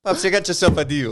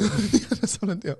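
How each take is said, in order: First: High, loud put-on voice; dad agreeing to son's deal in a put-on voice; mock dad voice. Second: High, put-on voice echo; mock echo. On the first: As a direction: close the deal in a hammed-up voice. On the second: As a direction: repeat the deal line in a put-on voice. Echoing the deal line.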